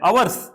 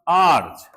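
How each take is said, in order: First: The word is said like 'avars' with two syllables. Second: The word is said like 'aars' with one syllable. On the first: The speaker calls it wrong. "कई बोलते हैं अवर्स" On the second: The speaker calls it right. "H silent"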